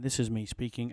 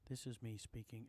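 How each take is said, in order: First: It is spoken at a higher volume. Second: It is spoken at a lower volume. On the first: "at a higher level" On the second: "at a lower level"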